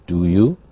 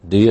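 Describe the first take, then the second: First: Each word is said separately and fully. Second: The words are run together in a reduced form.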